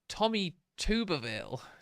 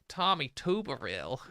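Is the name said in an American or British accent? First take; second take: British; American. First: It is said in the speaker's own accent. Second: It is said in a put-on American accent.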